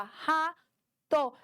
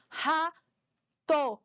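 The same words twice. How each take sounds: First: "Rato" said as "Ra-to", one clap per syllable; split into syllables. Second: "Rato" said as "Ra-to", one beat per syllable; split into syllables. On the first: Teacher showing a clap for each syllable of "Rato", in beats. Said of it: "Bate palma pra cada sílaba". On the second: Teacher showing how to step on each syllable of "Rato", in beats. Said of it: "dá um passo pra cada sílaba". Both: Shown as a demonstration.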